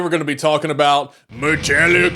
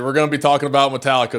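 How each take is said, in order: First: It is said in a put-on imitation voice. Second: It is said in the speaker's normal voice. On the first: "my [name] impression" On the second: "but seriously"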